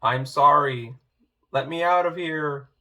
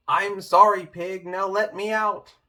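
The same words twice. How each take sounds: First: Said in the usual way. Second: Louder and higher, shouting the sorry; shouted apology. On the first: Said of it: "Louder, clearer, give a shout". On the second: Acted. Wolf in the pot shouts his apology to Pig as ordered. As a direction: call it out loud for the pig. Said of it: "give a shout".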